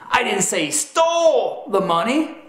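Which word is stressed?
stole. The word 'stole' is stressed. He did something with the money other than steal it. "that emphasis communicates that perhaps he did something with the money other than steal it"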